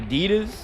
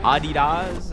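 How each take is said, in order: First: It is said with a non-British pronunciation. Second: It is said with a British pronunciation.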